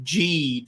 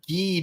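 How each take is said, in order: First: The name begins with a J sound. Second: The name begins with a hard G sound. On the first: "G with a J" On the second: "we turned Geed into"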